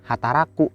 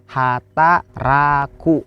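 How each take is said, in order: First: Said in the usual way. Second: "Hataraku" very slow, syllables apart; "Hataraku" stretched with a gap after each syllable. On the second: Shown as a demonstration. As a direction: sound out "Hataraku" for learners. Teacher breaks word into syllables.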